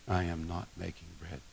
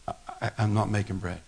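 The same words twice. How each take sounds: First: Much softer, low repeat of the refusal; quiet repeat. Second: Said in the usual way. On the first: Acted. Jesus repeating his refusal, softer and quieter. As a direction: let it drop to a hush. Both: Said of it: "But Jesus says".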